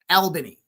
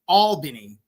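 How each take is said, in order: First: It is said with a Western New York pronunciation. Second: It is said with an Eastern New York pronunciation. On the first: The speaker calls it right. "In Western New York, it's Albany" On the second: The speaker calls it wrong. "not Albany"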